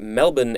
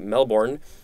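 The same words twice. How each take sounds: First: It is said the Australian way. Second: It is said the American way.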